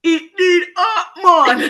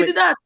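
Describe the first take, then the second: First: Slow, loud, high cartoon Jamaican accent; mock Jamaican accent. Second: Put-on higher-pitched Creole-accented phrase. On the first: Mocking what classmate expected to hear, fake Jamaican accent. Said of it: "what do you think I was gonna say". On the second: Teller giving classmate the phrase, Creole. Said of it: "Oh, in Creole".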